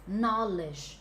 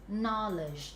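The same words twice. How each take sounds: No difference in how they are said.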